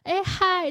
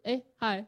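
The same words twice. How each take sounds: First: The greeting is bright, open and lively. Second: The greeting is plain, flat and unexcited.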